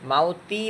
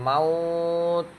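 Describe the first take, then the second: First: The word ends with an added i vowel. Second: The word ends on the final t consonant. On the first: The speaker calls it wrong. "মাউতি বলতে হবে না" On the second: The speaker calls it right.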